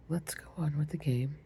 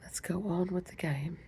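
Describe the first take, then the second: First: Said in the usual way. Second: A light whispered attempt at an English accent; whispered mock English accent; terrible English accent. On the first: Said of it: "pardon, my voice is going in and out". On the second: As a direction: try a hint of a posh English queen. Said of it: "My terrible English accent".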